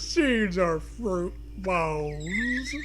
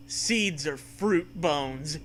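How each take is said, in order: First: Milk the sadness for laughs; exaggerated mournful drawl; hammed-up sadness. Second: Very slow, mournful read; mock-sad, drawn out; sadly. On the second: A narrator's reading. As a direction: mourn the apple core slowly. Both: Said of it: "you say sadly".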